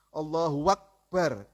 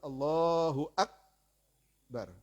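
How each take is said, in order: First: A w sound is added before the second word. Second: No w sound is added before the second word. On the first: The speaker calls it wrong. "Atau ditambah wawu" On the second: The speaker calls it right. "Yang betul"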